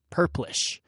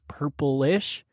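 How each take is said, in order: First: The word is said with two syllables. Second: The word is said with three syllables. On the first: The speaker calls it right. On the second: The speaker calls it wrong.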